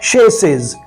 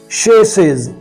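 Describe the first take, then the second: First: The word begins with an 'sh' sound. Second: The same.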